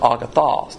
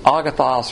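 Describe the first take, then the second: First: The last syllable has an O vowel. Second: The last syllable has an A vowel. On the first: "You can pronounce it A or O" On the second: "You can pronounce it A or O"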